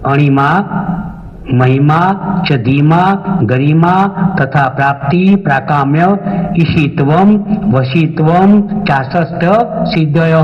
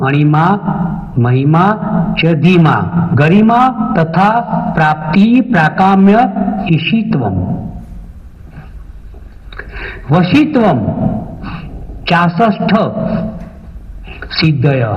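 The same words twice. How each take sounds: First: It is recited quickly in one continuous run. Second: It is recited slowly, word by word. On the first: "હવે મંત્ર સળંગ બોલી રહ્યું છું" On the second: "મંત્ર ધીરે ધીરે જ બોલું છું"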